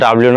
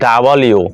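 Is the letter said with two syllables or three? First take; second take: two; three. First: The letter is squeezed into two syllables. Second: The letter is said in three full syllables. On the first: The speaker calls it wrong. "আসলে এটা ডাব্লিউ না" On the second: The speaker calls it right. "এটা হচ্ছে ডাবল ইউ"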